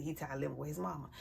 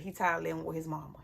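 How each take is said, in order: First: Much softer, lower, quick; muttered echo. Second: Said in the usual way. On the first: Retold or imitated. Mother echoing her son's complaint, muttered and soft. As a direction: let it fade to a dry aside.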